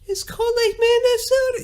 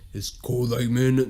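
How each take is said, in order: First: It is said in a high falsetto voice. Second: It is said in an evil-sounding voice.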